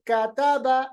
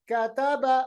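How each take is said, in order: Both takes have the same delivery.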